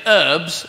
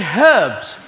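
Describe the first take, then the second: First: "herbs" with a silent h, "erbs"; American herbs. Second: "herbs" with a clear, stressed h; British herbs. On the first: Retold or imitated. Contrasting British and American, "herbs" without the h. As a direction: drop the h in "herbs". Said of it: "we do pronounce things in a different way". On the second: Shown as a demonstration. Insisting on the British way, "herbs" with a pointed h. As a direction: hit the h in "herbs" hard. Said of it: "there's a fucking H in it".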